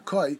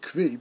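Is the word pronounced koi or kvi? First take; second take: koi; kvi. First: The word is said with an oi sound: koi. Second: The word is said with a v sound: kvi. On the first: The speaker calls it right. "it's more properly pronounced the koi" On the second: The speaker calls it wrong. "some also pronounce it the kvi"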